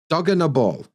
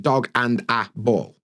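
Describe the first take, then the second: First: The middle words blend into a quick unna. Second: Each middle word is said fully and separately. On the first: "So and a actually becomes unna" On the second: "See how different that is to"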